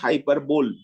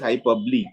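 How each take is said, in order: First: The word ends like 'bowl', with three syllables. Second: The word ends in 'bo-lee', with four syllables. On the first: The speaker calls it wrong. "It is not hyperbole" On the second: The speaker calls it right. "it is hyperbole"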